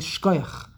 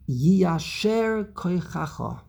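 First: The phrase is squeezed into one short word. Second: The phrase is said in its full form. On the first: The speaker sounds more yeshivish. "if you want to sound more yeshivish" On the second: This is the full formal wording. "it is the custom for us to say to them"

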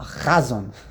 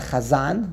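First: The stress is on the first syllable. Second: The stress is on the last syllable. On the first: It suggests an elaborate cantorial performer. The speaker calls it wrong. "We say like in Yiddish. We put the emphasis on the mila'el" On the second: It simply names the prayer leader. The speaker calls it right. "the way it's correctly pronounced"

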